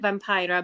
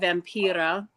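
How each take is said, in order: First: The name is pronounced the English way. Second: The name is pronounced the Finnish way. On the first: This is how other people say the name. "other people pronounce it Vampira" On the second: This is how Finns say the name. "we Finns"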